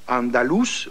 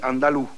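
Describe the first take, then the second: First: The final consonant is clearly pronounced. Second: The final consonant is dropped. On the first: "on ne dit pas andalous" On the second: "ne prononce pas les lettres finales"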